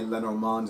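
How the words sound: The name is said with a French pronunciation. "it's more natural to say Lenormand"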